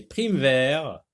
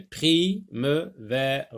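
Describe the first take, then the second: First: Said in the usual way. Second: "Prime-vers" very slowly split as pri, me, ve, re; syllable by syllable. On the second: Shown as a demonstration. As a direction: sound out "Prime-vers" with a gap after each syllable. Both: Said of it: "On va sectionner".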